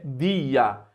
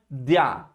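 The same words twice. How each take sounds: First: The vowels are split into two syllables. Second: The vowels are joined into one syllable. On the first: The speaker calls it right. "é dia. Você separa" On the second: The speaker calls it wrong. "a pronúncia não é dia"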